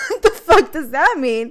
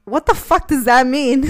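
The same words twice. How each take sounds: First: Higher and louder through laughter; laughing and crying. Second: Loud laughing what-the; half-laughing, half-shouting; laughing disbelief. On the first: Real, not acted. Repeating his vague answer, laughing and squealing. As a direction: crack up while saying it. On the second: Retold or imitated. Retelling the boyfriend's answer, laughing loud. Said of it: "And I was like".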